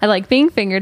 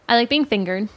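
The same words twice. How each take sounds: First: It is said at a louder volume. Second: It is said at a quieter volume.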